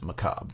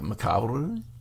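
First: The final R is plain, American style. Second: The final R is rolled, French style. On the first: "how dumb Americans say that word" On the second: "you kind of pronounce the R-E at the end with like a rolling R"

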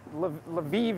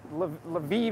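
First: The name is said the Ukrainian way. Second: The name is said the Ukrainian way.

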